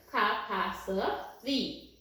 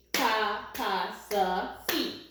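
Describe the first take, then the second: First: Said in the usual way. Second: "Capacity" stretched out very slowly, each syllable spelled out; slow syllable-by-syllable word. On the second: Shown as a demonstration. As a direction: draw out "Capacity" syllable by syllable for the class. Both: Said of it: "remember today we talked about the word capacity".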